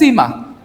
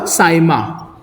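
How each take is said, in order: First: The first vowel sounds like 'ee'. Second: The first vowel sounds like 'eye'.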